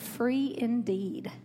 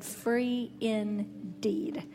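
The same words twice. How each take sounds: First: Said in the usual way. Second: "free indeed" slow, leaning hard on "indeed"; "indeed" stressed, "free indeed" drawn slow. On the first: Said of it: "I didn't just say free". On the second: Shown as a demonstration. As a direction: drag out "free indeed", landing on "indeed". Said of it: "with an emphasis on the indeed".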